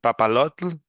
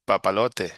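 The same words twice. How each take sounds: First: Papalotl as the Nahuatl word; Nahuatl original. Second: Papalote in Spanish, pa-pa-LO-te. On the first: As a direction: Papalotl with the tl ending kept. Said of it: "that's papalote". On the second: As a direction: papalote ending in a clear te. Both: Shown as a demonstration.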